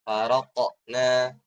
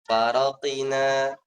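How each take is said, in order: First: A short heavy bounce with no full vowel. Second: An 'i' vowel is heard after the q. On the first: The speaker calls it right. "dimiringkan gitu ya agar tidak menyerupai harokat ... tetap tebal" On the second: The speaker calls it wrong. "Nggak boleh"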